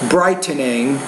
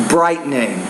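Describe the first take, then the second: No difference in how they are said.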